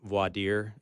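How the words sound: It is said the French way.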